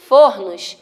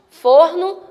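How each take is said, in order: First: FORNOS with an open ó, fór-nos; FORNOS, stressed o open-mid. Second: FORNO with a closed ô, fôr-no; FORNO, stressed o close-mid. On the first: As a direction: say "fornos" with a wide ó, voice dropping. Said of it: "ele vai dar o som de aberto". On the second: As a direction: say "forno" with rounded ô. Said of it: "A tonicidade dela vai ser fechada". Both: Shown as a demonstration.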